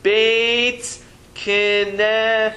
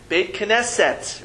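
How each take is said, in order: First: "Beit Knesset" drawn out very slowly, each syllable held apart; slow model reading. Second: 1 slower repeat. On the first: Teacher slowly models "Beit Knesset" for the class, very drawn out. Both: Shown as a demonstration. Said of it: "what is that word again?".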